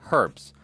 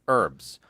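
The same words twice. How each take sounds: First: It is said the British way. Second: It is said the American way. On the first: "in Acharaland they say herbs" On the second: "in the U S we say herbs"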